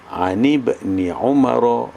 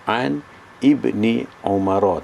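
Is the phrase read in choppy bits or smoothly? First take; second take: smoothly; choppy. First: It is read straight through without breaks. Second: It is read in short, broken-up chunks. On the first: The speaker calls it right. "kalau baca terus, yang baiknya baca terus" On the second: The speaker calls it wrong. "Kalau baca pendek-pendek, sekat-sekat"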